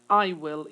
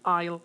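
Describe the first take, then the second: First: It is said as two full separate words. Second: It is said as one shortened contracted word. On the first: "I'm saying uh, I will" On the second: "it's going to be I'll"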